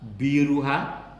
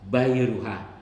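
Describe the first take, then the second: First: The first syllable has an "i" vowel. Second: The first syllable has an "a" vowel. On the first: "dengan kasroh ba" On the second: "bifathil ba"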